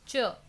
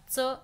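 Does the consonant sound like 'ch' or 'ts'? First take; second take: ch; ts. First: The consonant is a palatal 'ch' sound. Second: The consonant is a dental 'ts' sound. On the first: The speaker calls it right. "च असा करायचा आहे" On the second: The speaker calls it wrong. "च असा नाही"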